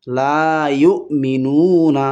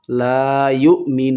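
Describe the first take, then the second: First: ইউমিনুনা with a short final না; continuing form. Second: ইউমিনুন with নু stretched long, ending on ন; stopping form. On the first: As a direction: recite slowly, নু held briefly and the last ন voiced as না. (না-থেমে পড়ার মতো ইউমিনুনা) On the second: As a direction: hold নু for three counts and stop on a closed ন. (থামার নিয়মে ইউমিনুন টেনে পড়া) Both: Shown as a demonstration. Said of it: "এখানে যদি থামেন তাহলে হবে".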